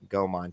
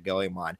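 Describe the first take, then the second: First: The name is said with two syllables. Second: The name is said with three syllables. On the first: The speaker calls it wrong. "I went from Go Gomon" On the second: The speaker calls it right. "to Goemon"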